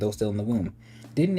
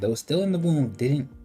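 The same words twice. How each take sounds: First: 'Didn't' opens a new sentence after a break. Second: 'Didn't' closes the phrase after 'womb'. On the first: The speaker calls it right. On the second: The speaker calls it wrong.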